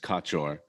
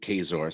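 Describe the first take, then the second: First: The middle consonant is pronounced as 'ch'. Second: The middle consonant is pronounced as 'z'. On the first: This is the original Polish form of the name. "in Polish, I think it's Kaczor" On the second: This is how the family says the name. "the C is silent to pronounce it"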